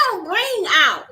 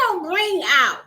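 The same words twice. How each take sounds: The two takes are said the same way.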